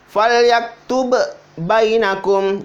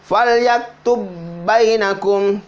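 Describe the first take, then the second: First: The first b is released separately from the second. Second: The two b sounds merge into one long b. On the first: The speaker calls it wrong. "tidak dibaca falyaktub bainakum" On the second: The speaker calls it right. "Jadi dibaca falyaktub bainakum"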